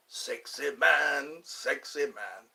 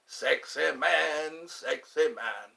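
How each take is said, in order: First: Slow, fading Fat Bastard imitation. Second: Slow, drawn-out Fat Bastard imitation. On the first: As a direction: stretch each word, let it trail off. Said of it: "Fat bastard left a floater". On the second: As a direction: drag it out slowly like Fat Bastard. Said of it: "Isn't that what Fat Bastard said?".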